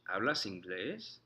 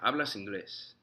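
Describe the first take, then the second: First: It is said as a question, rising. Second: It is said as a statement, falling. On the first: It asks whether the listener speaks English. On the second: It states that the listener speaks English. "For the statement"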